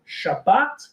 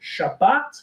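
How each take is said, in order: First: It is said with a modern Hebrew pronunciation. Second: The same.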